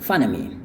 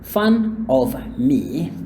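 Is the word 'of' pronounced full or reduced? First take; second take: reduced; full. First: The word 'of' is reduced to 'uh'. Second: The word 'of' is pronounced fully. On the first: "dikurangin bunyinya menjadi a doang" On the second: "instead of saying fun of me, ketimbang ngomong yang lengkap"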